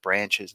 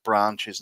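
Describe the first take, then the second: First: It is said in a plain everyday accent. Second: It is said in a posher, highbrow accent. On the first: "instead of branches" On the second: "there's a couple other words that they use, like branches"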